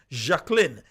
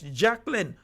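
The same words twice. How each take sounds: First: The name is said in French style. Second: The name is said in plain English style. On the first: The speaker calls it right. "you have to put the emphasis, the French on it" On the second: The speaker calls it wrong. "we can't say it just normal"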